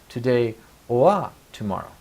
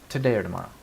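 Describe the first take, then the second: First: The word 'or' has a full rounded 'oa' vowel. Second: The word 'or' is reduced to a weak 'er'. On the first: The speaker calls it wrong. "Nobody will say" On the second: The speaker calls it right. "people will be saying"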